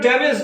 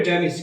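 First: ড্যামেজ ending in -ej, like damej; common wrong damage. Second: ড্যামেজ ending in a short i, like damij; correct damage. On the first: Teacher to students, showing the wrong ড্যামেজ with -ej. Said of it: "যেটাকে আমরা ড্যামেজ বলি". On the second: Teacher to students, giving the correct ড্যামেজ with -ij. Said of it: "IPA অনুসারে উচ্চারণ হবে". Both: Shown as a demonstration.

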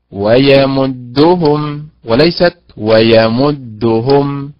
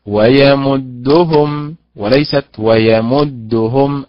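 First: Slow ويمدهم, stress moved onto the هاء in the second; teacher contrasting correct and wrong stress; right vs wrong stress. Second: Slow ويمدهم, stress moved onto the هاء in the second; teacher repeating the stress drill; right vs wrong stress again. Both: Shown as a demonstration. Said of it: "يضع النبر على حركة الهاء".

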